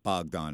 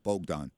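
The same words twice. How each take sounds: First: The first vowel is a short O sound. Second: The first vowel is a long O sound. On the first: The speaker calls it wrong. "not Bogdan" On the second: The speaker calls it right. "it's a long O"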